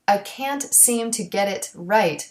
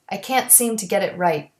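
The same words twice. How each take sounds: First: The final t sounds are fully released. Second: The final t sounds are stopped without release.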